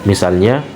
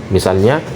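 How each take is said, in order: Both takes have the same delivery.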